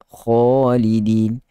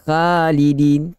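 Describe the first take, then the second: First: The vowel after kh sounds thick and heavy. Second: The vowel after kh sounds thin and light. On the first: The speaker calls it right. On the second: The speaker calls it wrong.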